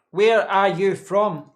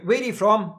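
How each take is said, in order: First: Very slow and a bit louder, each word drawn out; slow right down like the viewer asked; deliberately slow. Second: Said in the usual way. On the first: Shown as a demonstration. Streamer answering a chat request to talk slowly, exaggeratedly slow. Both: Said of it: "talk slowly".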